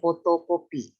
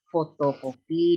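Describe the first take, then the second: First: The word begins with a p sound. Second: The word begins with an f sound. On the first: This is a nonstandard form. The speaker calls it wrong. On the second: An educated speaker uses the standard form. The speaker calls it right.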